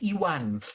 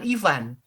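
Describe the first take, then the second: First: The middle consonant is said as a W sound. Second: The middle consonant is said as a V sound. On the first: The speaker calls it right. "namanya Iwan gitu ya" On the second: The speaker calls it wrong. "Bukan Ivan"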